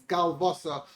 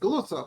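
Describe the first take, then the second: First: The word has a 'v' sound in the middle. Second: The word has no 'v' sound in the middle. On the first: It is read with vowel marks. "in the Siddur with the Nikud, it's Galvasa" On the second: It is read without vowel marks. "we read it the Yeshivish way, we uh, read it and pronounce it as Galusa"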